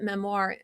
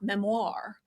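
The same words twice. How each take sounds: First: The word is said in a plain, ordinary way. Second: The word is said in a showy, theatrical way. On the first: "you pronounced it memoir" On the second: "the most theatrical pronunciation"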